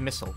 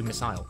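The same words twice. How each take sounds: First: It is said in an American accent. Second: It is said in a British accent. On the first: "Americans do missile. They, they do missile" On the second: "whereas I do missile"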